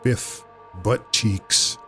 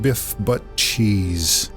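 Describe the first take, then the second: First: The name is said in a crude, childish way. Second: The name is said in a refined, grown-up way. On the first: "sophomoric, very childish and thoroughly teenage boy" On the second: "a dash of uh, adult pronunciation"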